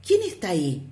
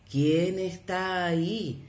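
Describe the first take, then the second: First: Put-on child's question. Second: Slow echo from the mountains; drawn out as if from far away; the mountain echoing the boy's question slowly; distant echo. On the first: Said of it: "el niño preguntó". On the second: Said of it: "le respondieron". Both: A narrator's reading.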